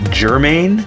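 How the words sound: It is said with an r after the first vowel. "that's what I've always known it as"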